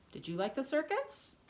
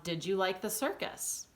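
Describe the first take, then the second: First: High rise through to "circus"; exaggerated questioning tune. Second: Slight rise at the end on "circus"; questioning tune. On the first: Teacher repeating the example question, strong rise on "circus". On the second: Teacher giving an example question, small lift on "circus". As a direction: ask it lightly, lifting "circus" a little. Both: Shown as a demonstration. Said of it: "if you're asking someone a question".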